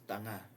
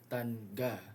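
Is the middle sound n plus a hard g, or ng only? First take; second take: ng only; n plus g. First: The middle is a single velar nasal ng sound. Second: The middle is an n plus a hard g. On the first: The speaker calls it right. "No, it's tanga, nga" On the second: The speaker calls it wrong. "You're not gonna pronounce it as"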